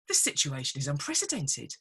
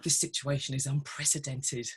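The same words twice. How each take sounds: First: It is said in an excited, celebratory tone. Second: It is said in a dismayed, gloomy tone. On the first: The situation is an opportunity. "how liberating" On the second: The situation is a threat. "the tone in terms of how we use it"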